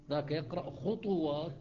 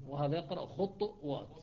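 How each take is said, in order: First: خطوات as khutuwat with u after ط, slowly; Hafs reading. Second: خطوات as khutwat, ط stopped with a light echo; Shuba reading. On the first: Teacher contrasts Hafs's خطوات, slowly. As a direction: draw out خطوات with a full u. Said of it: "الفرق بينهما قليل جدًا". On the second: Teacher contrasts Shuba's خطوات with qalqala. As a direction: clip خطوات with a still bounced ط. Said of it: "بالقلقلة يصير الفرق قليل". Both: Shown as a demonstration.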